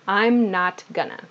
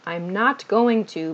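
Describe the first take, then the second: First: Going to is shortened to gonna. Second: Going to is said in full, unreduced.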